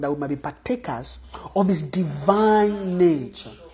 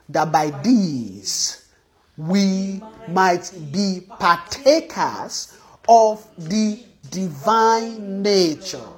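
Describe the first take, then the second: First: It is said fast. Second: It is said slowly.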